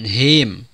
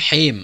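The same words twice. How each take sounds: First: The h is a plain, light breath. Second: The h is a deep, raspy throat sound. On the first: The speaker calls it wrong. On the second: The speaker calls it right.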